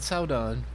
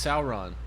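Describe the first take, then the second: First: The middle consonant sounds like a D. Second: The middle consonant is a clear R sound. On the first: The speaker calls it wrong. "she's just saying it wrong" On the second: The speaker calls it right. "It's Sauron"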